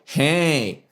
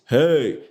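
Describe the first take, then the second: First: A sharp, nasal, twangy voice is used. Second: A full, low chest voice is used. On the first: "and the pharyngeal" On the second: "the chest voice"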